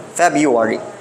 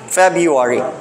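Both takes have the same delivery.

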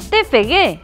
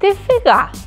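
First: The letter G is read as 'gue'. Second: The letter G is read as 'ga'. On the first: The speaker calls it right. "esta letra se lee como G. Pois entón" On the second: The speaker calls it wrong.

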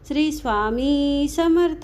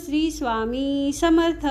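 Both takes have the same delivery.

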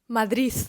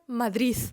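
First: The word ends with an s sound. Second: The word ends with an s sound.

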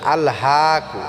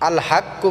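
First: The vowel is stretched for one beat. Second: The k is doubled and the vowel is short. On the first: The speaker calls it right. "এখানে এক আলিফ আমরা টেনে পড়বো" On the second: The speaker calls it wrong. "আল হাক্কু বললে হবে না"

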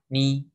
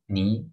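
First: The pitch stays high and level. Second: The pitch rises from middle to high. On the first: "four tones" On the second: "four tones"

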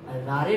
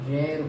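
First: It has an 'aa' vowel and a final 'ay'. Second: It is one syllable with no final vowel. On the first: The speaker calls it wrong. "रारे नहीं बोलते हैं" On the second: The speaker calls it right. "इसका उच्चारण रेर होता है"

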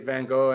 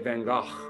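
First: The name is said with an American pronunciation. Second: The name is said with a Dutch pronunciation. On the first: The speaker calls it wrong. "Americans say van Gogh" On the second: The speaker calls it right. "the Dutch say van Gogh"

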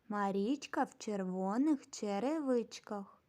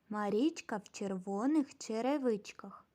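The two takes are said the same way.

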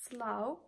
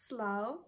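No difference in how they are said.

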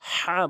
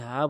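First: The h comes from the middle of the throat. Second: The h is a plain breathy sound. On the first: The speaker calls it right. "হা বলতে হবে" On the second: The speaker calls it wrong. "কখনোই হা বলবেন না"

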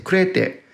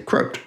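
First: The word is pronounced in a Japanese style. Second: The word is pronounced in an English style. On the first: "My Japanese friends, and talking with my teacher, they say crete" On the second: "When I speak with my English-speaking friends, they all say crote"

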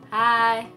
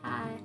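First: It is said more loudly. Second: It is said at normal, softer volume.

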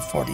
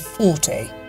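First: It is said in an American accent. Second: It is said in a British accent. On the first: "the Americans say 40" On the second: "the British say 40"

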